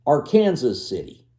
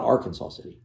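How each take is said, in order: First: "Arkansas" said ar-KAN-zuh; "Arkansas" with Kansas in the middle; Kansas pronunciation. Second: "Arkansas" said AR-kan-saw; "Arkansas" ending in saw; saw pronunciation. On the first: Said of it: "and it's called the". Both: Shown as a demonstration.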